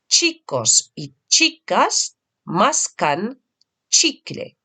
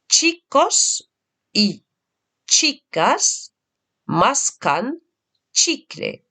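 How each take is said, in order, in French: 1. Elle est dite un peu plus vite. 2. Elle est dite lentement et avec soin.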